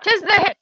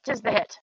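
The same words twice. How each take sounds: First: High, louder mock-archaic cheer; playful olde-English gloat; mock triumphant. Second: Said in the usual way. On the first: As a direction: crow it like a bard's victory line. Player celebrates a hit.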